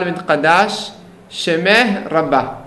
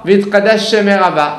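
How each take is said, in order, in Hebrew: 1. שני צלילי השין נאמרים בנפרד. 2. שני צלילי השין מתמזגים לאחד. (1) "צריכים להפריד" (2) "לא"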